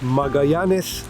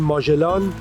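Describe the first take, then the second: First: The name is said in its Spanish form. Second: The name is said in its Persian form. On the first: "به اسپانیایی میگن ماگایانس" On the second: "ما بهش میگیم ماژلان"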